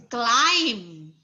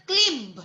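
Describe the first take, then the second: First: "climb" with a long i, like "klaim"; correct pronunciation of climb. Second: "climb" with a short i, like "klimb"; mispronounced climb. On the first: Teacher corrects the student, "climb" clearly said as "klaim". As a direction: say "climb" rhyming with "time", silent b. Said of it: "It's climb". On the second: Teacher echoes the student's mistake, "climb" mispronounced as "klimb". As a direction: say "climb" wrongly, rhyming with "limb", b sounded. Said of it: "it's not climb". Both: Shown as a demonstration.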